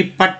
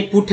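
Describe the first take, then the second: First: पट with uh, rhyming with बट; पट with the vowel of but; wrong pronunciation demo. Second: पुट with a short oo; पुट with rounded short vowel; correct pronunciation demo. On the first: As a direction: misread put as पट. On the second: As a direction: say पुट, oo in place of uh. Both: Shown as a demonstration. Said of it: "पट नहीं पुट है".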